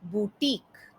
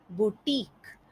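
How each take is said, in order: Both takes have the same delivery.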